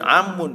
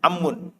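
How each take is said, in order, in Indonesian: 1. Vokal pertama dibaca panjang. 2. Vokal pertama pendek, sebelum m ganda. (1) "Bukan amun ya" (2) "tidak pakai mad ya"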